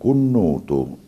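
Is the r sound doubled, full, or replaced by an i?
doubled. The r is dropped and the consonant doubled. This is how it is said in Catania. "dice il catanese, raddoppiando"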